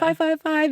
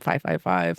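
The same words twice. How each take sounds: First: It is said in an excited tone. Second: It is said in a worried tone.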